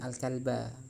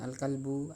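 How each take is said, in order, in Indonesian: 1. Kata itu berakhir dengan vokal a. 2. Kata itu berakhir dengan vokal u. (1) "harus dibaca nasab atau mansub atau fathah" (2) "ada sebagian mahasiswa yang tidak tahu ini gimana cara membacanya"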